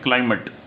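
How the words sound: It is said in an American accent, vowel short.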